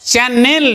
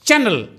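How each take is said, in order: First: The n and the l are split apart. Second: The n runs straight into the l. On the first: The speaker calls it wrong. "চ্যানেল নয়, নয় এক আর ল নয়" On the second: The speaker calls it right. "নয়ের পরে সঙ্গে সঙ্গে ল বলে দিতে হবে"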